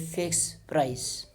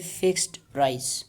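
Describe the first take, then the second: First: The t sound at the end of 'fixed' is dropped. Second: The t sound at the end of 'fixed' is heard. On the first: "in connected speech, we usually say fixed price. So the da sound is dropped" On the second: "there is a da sound"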